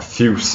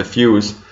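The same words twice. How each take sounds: First: "Fuse" as one syllable, fyooss; alternative pronunciation. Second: "Fuse" in two syllables, FEW-ez; alternative pronunciation. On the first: Reviewer offers another reading of the name, one-syllable "Fuse". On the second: Reviewer unsure of a juice's name, "Fuse" as two-syllable FEW-ez. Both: Shown as a demonstration. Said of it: "or whatever you pronounce it".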